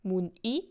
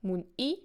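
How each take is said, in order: First: The stress is on the last syllable. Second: The same.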